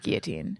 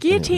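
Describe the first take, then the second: First: The word is said with a plain English pronunciation. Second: The word is said with a French-sounding pronunciation. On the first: "I guess it's always guillotine" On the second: "sounds Frenchy"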